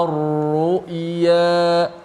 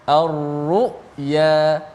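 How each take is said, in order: The two takes are said the same way.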